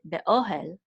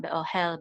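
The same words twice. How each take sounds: First: Be-OH-el, the middle syllable stressed. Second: Be-o-HEL, weight on the last syllable; wrong final stress. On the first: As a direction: lean on "o" in be-ohel. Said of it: "but be-ohel". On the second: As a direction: lean on "hel" in be-ohel. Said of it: "It's not be-ohel". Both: Shown as a demonstration.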